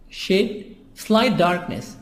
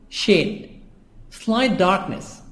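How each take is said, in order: Both takes have the same delivery.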